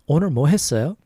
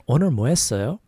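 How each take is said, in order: No difference in how they are said.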